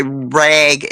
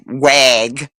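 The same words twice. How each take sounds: First: Said in the usual way. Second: Imitating the man saying wag. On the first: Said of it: "he would say rag". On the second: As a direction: swap the r of rag for a w. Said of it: "and it was wa".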